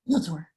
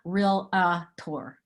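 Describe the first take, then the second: First: No extra vowel is inserted, giving two syllables. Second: An extra vowel is inserted, giving three syllables. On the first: The speaker calls it right. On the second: The speaker calls it wrong.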